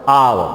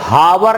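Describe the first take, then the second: First: The word begins directly with a vowel. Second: The word begins with an h sound. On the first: The speaker calls it right. "इसको आ पढ़ते हो" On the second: The speaker calls it wrong. "हावर नहीं पढ़ते हो"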